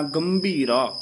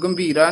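First: "ਗੰਭੀਰਾ" with nasal m and clear bh, falling; bh pronunciation. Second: "ਗੰਭੀਰਾ" said quickly and loosely; wrong reading. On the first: Teacher modelling the letter, careful bh sound. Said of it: "ਭੱਬੇ ਨਾਲ ਉਚਾਰਨ ਕਰਨਾ ਹੈ". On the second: Teacher naming the misreading, quick loose word. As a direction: rush "ਗੰਭੀਰਾ" without full nasal and bh. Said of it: "ਨਹੀਂ ਕਹਿਣਾ". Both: Shown as a demonstration.

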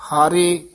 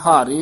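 First: ਹਾਰੇ said soft and unstressed; soft pronunciation. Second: ਹਾਰੇ pressed too firmly; mispronunciation demo. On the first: Teacher modelling the word, ਹਾਰੇ spoken softly without force. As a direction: keep ਹਾਰੇ gentle and open. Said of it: "ਪਦ ਪੂਲਾ ਹੀ ਉਚਾਰਨ ਕਰਨਾ ਹੈ". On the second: Teacher showing what to avoid, ਹਾਰੇ said with force. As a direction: lean too hard on ਹਾਰੇ. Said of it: "ਨਹੀਂ ਕਹਿਣਾ". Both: Shown as a demonstration.

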